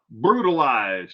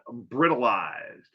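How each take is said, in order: First: The first syllable sounds like 'brew'. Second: The first syllable sounds like 'brit'. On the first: The speaker calls it right. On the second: The speaker calls it wrong. "not brittleized"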